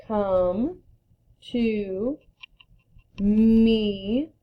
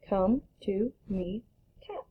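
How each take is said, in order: First: Each word alone with pauses; slow word-by-word read. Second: Read it fast. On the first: Teacher modeling slow reading before the fast version. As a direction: read it slowly one word at a time. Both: Shown as a demonstration. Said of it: "Read it fast".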